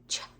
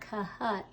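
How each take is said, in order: First: The two letters make one new sound. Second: Two separate letter sounds are said in turn. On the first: The speaker calls it right. "it's cha" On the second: The speaker calls it wrong. "It's not kaha"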